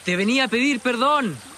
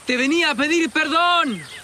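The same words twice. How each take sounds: First: It is said louder than normal. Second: It is shouted at full volume. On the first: "Más fuerte" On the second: "Grítelo ahora"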